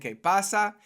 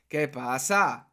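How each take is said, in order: First: The vowels are short and even. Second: The vowels are stretched out and drawn long. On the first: "instead of saying que pasa" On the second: "we like to really extend some of the vowels"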